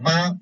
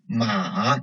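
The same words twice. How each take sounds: First: It is said with the Mandarin first tone. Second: It is said with the Mandarin third tone. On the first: It means mother. "the first tone ma means mother" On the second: It means a horse. "third tone ma means a horse"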